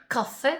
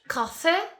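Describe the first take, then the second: First: The second syllable is drawn out and resonant. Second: The same.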